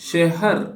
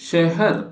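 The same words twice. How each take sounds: The two takes are said the same way.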